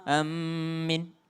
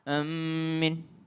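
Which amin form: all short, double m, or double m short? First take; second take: double m; double m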